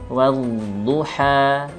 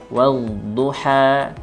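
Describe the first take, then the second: The two takes are said the same way.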